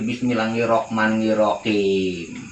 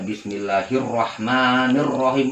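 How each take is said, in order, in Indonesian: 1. Diucapkan dengan logat Jawa dan bunyi yang kurang fasih. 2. Diucapkan dengan bunyi Arab yang fasih. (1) "tapi ... ya dia nggak fasih"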